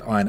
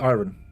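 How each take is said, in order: First: The word is pronounced in a non-American way. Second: The word is pronounced in an American-sounding way. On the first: The speaker calls it wrong. "that's why I've said iron, and I do know that is wrong" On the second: The speaker calls it right. "Iron is supposed to be iron, but the problem is that iron to me sounds American"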